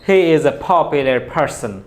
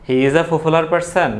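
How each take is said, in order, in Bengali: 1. p ধ্বনিগুলোতে বাতাসের জোরালো ফুঁ আছে। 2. p ধ্বনিগুলো সাধারণ, এতে বাতাসের ফুঁ নেই। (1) "তোমাকে বলতে হবে যে" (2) "না, এটা ভুল প্রনাউন্সিয়েশন।"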